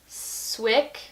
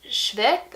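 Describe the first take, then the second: First: The name starts with a plain English 'sw' sound. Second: The name starts with a German-like 'shv' sound. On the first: The speaker calls it right. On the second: The speaker calls it wrong.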